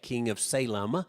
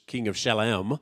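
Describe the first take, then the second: First: The name begins with a plain s sound. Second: The name begins with a sh sound. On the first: This is the usual English form of the name. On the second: This is how the name sounds in Hebrew.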